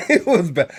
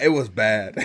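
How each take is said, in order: First: Said through a laugh. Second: Said in the usual way. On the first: Real, not acted. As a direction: laugh the words out. Repeats it with a laugh.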